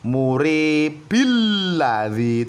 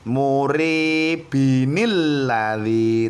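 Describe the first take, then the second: First: Murib runs into alladzi with only 'il'. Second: Murib runs into alladzi with an added 'inil'. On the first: The speaker calls it wrong. "Tidak boleh muribil ladzi" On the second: The speaker calls it right. "Sekali lagi"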